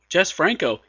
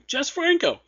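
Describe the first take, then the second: First: The name is said with a disdainful groan. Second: The name is said with eager excitement. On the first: The listener dislikes this director. "you probably don't want to check this out" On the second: The listener is a fan of this director. "you should probably go, yeah, and check this out"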